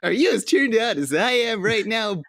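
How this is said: It is said in a Sonic voice.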